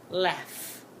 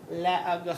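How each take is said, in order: First: The word ends with an f sound. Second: The word ends without any f sound. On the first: The speaker calls it right. "Do you hear how the G H is making the f sound?" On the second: The speaker calls it wrong. "That is not how I say that word"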